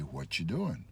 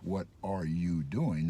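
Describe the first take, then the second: First: The words are linked with a 'ch' sound. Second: The words are said separately with no 'ch' sound. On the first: "there is a ch sound when you link" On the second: "There's no ch sound"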